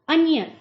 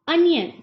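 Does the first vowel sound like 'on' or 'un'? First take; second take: un; un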